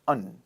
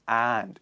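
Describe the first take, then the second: First: The word is reduced to a weak 'un' sound. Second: The word is said fully with a clear vowel. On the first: The speaker calls it right. "It is unstressed. So we pronounce it as un" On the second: The speaker calls it wrong. "not stressed and"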